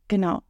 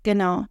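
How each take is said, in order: Both takes have the same delivery.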